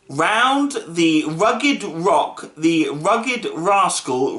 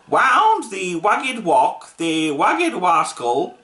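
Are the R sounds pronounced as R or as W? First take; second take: R; W. First: The R sounds are pronounced as clear R. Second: The R sounds are pronounced as W. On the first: The speaker calls it right. "The exact words they had to say was" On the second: The speaker calls it wrong. "cannot pronounce R, he can only say W"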